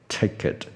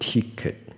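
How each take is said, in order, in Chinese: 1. 第一个元音是短而松的 i 音。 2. 第一个元音是长而紧的 ee 音。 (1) "票什么电影票啊火车票Ticket" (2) "不是ticket"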